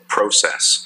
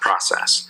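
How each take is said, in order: First: It is said with a Canadian accent. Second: It is said with an American accent.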